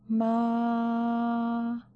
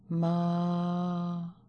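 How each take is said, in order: First: The syllable is said on a high pitch. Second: The syllable is said on a lower pitch. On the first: "La première sur un ton haut" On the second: "la deuxième en baissant la voix"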